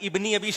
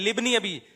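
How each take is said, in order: First: The word begins with a pronounced i vowel. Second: The opening vowel is silent, joined as libni. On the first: The speaker calls it wrong. "इब्नी अबी शैबा नहीं है" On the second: The speaker calls it right. "ये अलिफ साइलेंट है"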